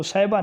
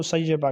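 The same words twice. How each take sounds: First: سیبہ in two syllables, "sai-ba"; mispronunciation to avoid. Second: سیبہ as "say-ye-ba", doubled y; careful doubled y in سیبہ; correct pronunciation. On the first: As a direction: say سیبہ short, as "saiba". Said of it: "اس کو سیبہ نہیں کہنا". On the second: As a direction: say سیبہ in three syllables, "sayyeba". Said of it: "اس کو سیبہ کہنا ہے". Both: Shown as a demonstration.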